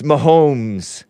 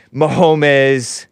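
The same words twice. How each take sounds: First: "Mahomes" in two syllables, ma-HOMES, drawn out; "Mahomes" with a silent e; corrected pronunciation. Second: "Mahomes" in three syllables, ma-HO-mes; "Mahomes" said as ma-HO-mez; mispronounced name. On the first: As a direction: say "Mahomes" slowly to rhyme with homes. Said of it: "It's Mahomes". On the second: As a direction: add a syllable at the end of "Mahomes". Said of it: "correcting me on Mahomes. It's Mahomes". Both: Shown as a demonstration.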